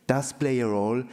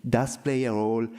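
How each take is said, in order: Both takes have the same delivery.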